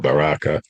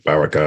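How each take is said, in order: First: The vowel after the R is long. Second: The vowel after the R is short. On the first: "long A" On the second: "a short A"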